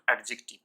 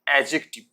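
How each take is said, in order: First: অ্যাডজেক্টিভ with the d heard, ad-jek-tiv; wrong pronunciation. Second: অ্যাডজেক্টিভ as a-jek-tiv, d silent; smooth a-jek-tiv for অ্যাডজেক্টিভ; correct pronunciation. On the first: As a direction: close on d before the j in অ্যাডজেক্টিভ. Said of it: "কিন্তু উচ্চারণটা তা নয়". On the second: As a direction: skip the d in অ্যাডজেক্টিভ. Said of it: "উচ্চারণটা হবে". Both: Shown as a demonstration.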